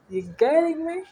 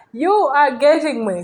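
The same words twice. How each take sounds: First: "getting me" lifted high as a question; high, questioning check on "getting me". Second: "are" punched high and loud, falling after; firm statement with "are" hit hard, "me" dropping; emphatic confirmation. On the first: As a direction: ask it high-pitched, rising on "getting me". Teacher checks that learners follow. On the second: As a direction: declare it loudly, stressing "are". Teacher turns question into confirmation. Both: Real, not acted.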